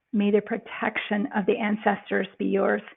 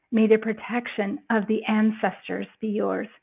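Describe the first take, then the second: No difference in how they are said.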